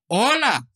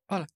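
First: It is shouted loudly. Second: It is said quietly, like a small sigh.

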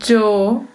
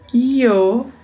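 First: The word begins with a dj sound. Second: The word begins with a y sound. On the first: "um som de DJ" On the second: "um som de I"

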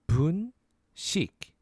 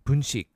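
First: The word is said slowly. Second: The word is said fast.

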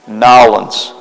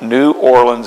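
First: The city name is squeezed into fewer syllables. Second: The city name is pronounced in full. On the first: The speaker calls it right. "let me say it right" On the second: The speaker calls it wrong. "It's not New Orleans"

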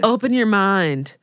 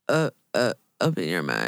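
First: It is said in the speaker's natural voice. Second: It is said in a put-on, drowsy imitation voice.

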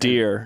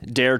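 First: The vowel is the usual 'ear' sound. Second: The vowel is the 'air' sound, like 'dare'.

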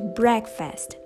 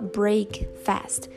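First: It is said as one word, sounding different. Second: It is said as two separate words. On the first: The speaker calls it right. "você pronuncia um pouquinho diferente" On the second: The speaker calls it wrong. "você não fala break fast"

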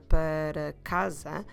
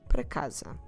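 First: Every syllable of para is fully pronounced. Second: Para is shortened to a single syllable. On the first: "pronouncing every syllable there" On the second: "just say para"

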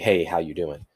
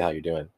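First: It is a sincere, genuinely interested greeting. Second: It is a casual, passing courtesy greeting.

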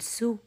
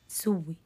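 First: The hamza is dropped, ending on a single w. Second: The hamza becomes w, ending on a doubled w. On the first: "نقل حركة الهمز إلى الساكن وححذف الهمزة" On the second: "الإبدال ثم الإدغام"

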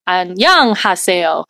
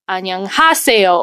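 First: The second syllable is stressed. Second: The third syllable is stressed.

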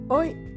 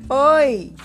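First: The word is said softly and quietly. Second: The word is shouted loudly. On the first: "a onça disse baixinho" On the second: "E a onça gritou"

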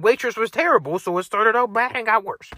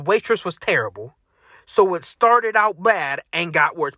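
First: There is no pause after terrible. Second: There is a pause after terrible.

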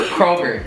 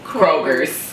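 First: The name ends without an s sound. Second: The name ends with an added s sound. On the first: This is the store's official name. "Store name Kroger" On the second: This is how the community commonly says it.

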